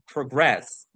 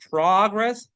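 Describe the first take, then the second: First: "progress" with the second syllable stressed, pruh-GRESS; verb stress on progress. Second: "progress" with the first syllable stressed, PRAH-gress; noun stress on progress. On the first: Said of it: "the verb is progress". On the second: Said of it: "The noun is progress". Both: Shown as a demonstration.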